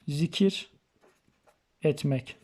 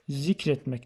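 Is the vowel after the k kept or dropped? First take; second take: kept; dropped. First: The vowel after the k is pronounced. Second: The vowel after the k is left out.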